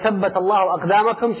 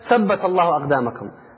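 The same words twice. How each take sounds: First: The first word begins with a 'th' sound. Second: The first word begins with an 's' sound. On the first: May your feet be made firm. The speaker calls it right. "She wanted to say" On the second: The sentence means nothing. The speaker calls it wrong. "rather than saying firm, she was saying Sabt"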